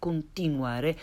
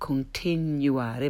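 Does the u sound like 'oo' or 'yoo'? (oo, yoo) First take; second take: oo; yoo. First: The u is a pure vowel with no glide. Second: The u is said with a y glide. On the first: The speaker calls it right. "but continuare" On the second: The speaker calls it wrong. "not continuare"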